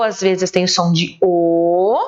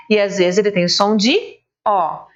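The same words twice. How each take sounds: First: Final "O" said closed, as in "ovo"; closed o sound. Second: Final "O" said open, as in "ó"; open o sound. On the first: Teacher showing the closed "O" sound to kids. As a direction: round the lips for a tight closed "O". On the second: Teacher showing the open "O" sound to kids. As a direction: open the mouth wide for an open "O". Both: Shown as a demonstration. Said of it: "Só que o O".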